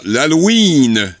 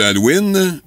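First: "Halloween" with a long stretched ee; long "ouiiine" in "Halloween"; mispronounced Halloween. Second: Said in the usual way. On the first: Retold or imitated. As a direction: say "l'Halloween" drawing out the last vowel. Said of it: "l'Halloween au lieu de Halloween". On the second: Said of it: "au lieu de Halloween".

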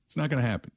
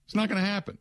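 First: Said in the usual way. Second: Not pitched much higher with a scoffing lift; emphatic dismissal. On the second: Real, not acted. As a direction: shoot the idea down hard on not. Host dismisses hope of answer.

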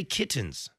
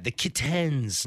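First: Said in the usual way. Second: Slow "kit-TENS" for "kittens"; screwed-up E. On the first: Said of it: "just say kittens". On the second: Retold or imitated. Host faulting commercial's actress, drawn-out kit-TENS. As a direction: drag the wrong full E in "kittens". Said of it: "screwed up the E in that".

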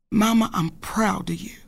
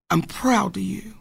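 First: Whispered tenderly; husband's whisper. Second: Said in the usual way. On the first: Retold or imitated. Wife retelling her husband's praise, whispered. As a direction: breathe it out like a secret to her. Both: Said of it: "and that king says to me".

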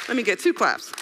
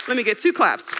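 No difference in how they are said.

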